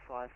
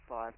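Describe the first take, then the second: Both takes have the same delivery.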